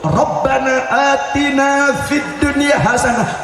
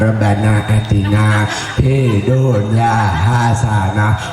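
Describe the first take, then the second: First: It is said with lively, expressive feeling. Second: It is said flatly, without expression. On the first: The speaker truly means the request. The speaker calls it right. "harus betul-betul ... pakai ekspresi" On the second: The words are recited without meaning them. The speaker calls it wrong.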